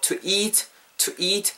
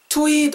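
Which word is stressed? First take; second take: to; eat. First: The stress falls on to. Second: The stress falls on eat. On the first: The speaker calls it wrong. "투부정사에는 강세가 안 들어가죠. 그래서 to eat more 이렇게 하지 마시고" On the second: The speaker calls it right. "eat에다 강세를 넣어주시면 자연스럽게 넘어갑니다"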